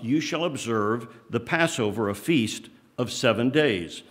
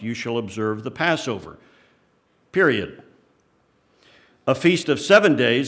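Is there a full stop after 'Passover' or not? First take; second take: no; yes. First: Passover runs straight on into the next phrase. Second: There is a full-stop break after Passover.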